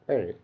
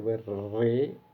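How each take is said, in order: First: The r is made with one quick tap. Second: The r is rolled with several tongue taps. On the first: The speaker calls it right. "but worry" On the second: The speaker calls it wrong. "we don't say worry"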